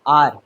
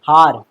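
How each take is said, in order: First: The word begins without an h sound. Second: The word begins with an h sound. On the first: The speaker calls it right. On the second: The speaker calls it wrong.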